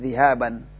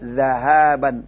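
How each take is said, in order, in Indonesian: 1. Vokal pertama adalah 'i'. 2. Vokal pertama adalah 'a'. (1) "bukan zihaban" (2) "Yang benar apa? Zahabun"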